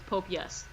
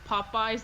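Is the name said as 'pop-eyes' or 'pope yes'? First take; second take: pope yes; pop-eyes. First: It is said as 'pope yes'. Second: It is said as 'pop-eyes'. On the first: The speaker calls it wrong. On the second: The speaker calls it right.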